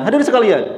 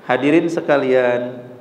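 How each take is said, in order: First: It is said very fast, like lightning. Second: It is said at a calm, clear pace.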